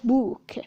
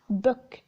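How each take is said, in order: First: The vowel is said long. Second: The vowel is said short. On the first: The speaker calls it wrong. "not book" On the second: The speaker calls it right. "a short U"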